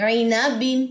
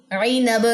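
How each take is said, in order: First: عی نا بن read with the full kasratain, ending -bin; with tanween. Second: عی نب with the kasratain dropped, the ending cut to -ab; waqf stop. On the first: Teacher reading the Qaida to students, full tanween. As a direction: end on بن with the nun sound. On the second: Teacher showing students the waqf stop, clipped ending. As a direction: stop on نب and drop the tanween. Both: Shown as a demonstration. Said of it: "دونوں زیریں drop کرنی ہے".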